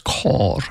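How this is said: The vowel is an o sound, Tashkent style.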